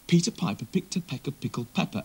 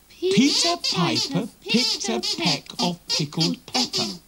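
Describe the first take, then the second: First: It is said at a quicker pace. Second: It is said at a slower pace.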